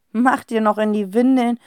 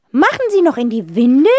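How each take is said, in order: First: Said in the usual way. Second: Put-on higher, louder old aunt question, rising. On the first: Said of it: "gibt Herr Wohlleben die Frage spaßeshalber". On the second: A narrator's reading. Aunt asking about the twins, nosy. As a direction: ask it like a nosy old lady. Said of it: "fragt Tante Rotzinder".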